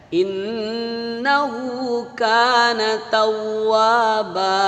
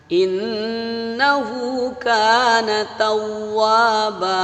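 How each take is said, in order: Both takes have the same delivery.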